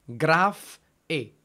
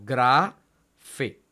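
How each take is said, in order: First: "graf e" with the f closing "graf", then a lone "e"; wrong syllable split. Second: Slow "gra fe", long open "gra", pause, then "fe"; correct syllable split. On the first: Teacher showing a forbidden division, "graf e" split after the f. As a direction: break "graf e" after the f, leaving "e" by itself. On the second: Teacher correcting the division, "gra fe" slowly split before the f. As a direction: hold "gra" open and start "fe" on the f. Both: Shown as a demonstration. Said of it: "no podemos decir graf e".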